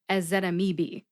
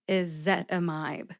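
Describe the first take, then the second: First: The last syllable has a different vowel sound. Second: The last syllable has a long 'eye' vowel. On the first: The speaker calls it wrong. "I used to say something like" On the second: The speaker calls it right. "you have to use a long I sound in the last syllable"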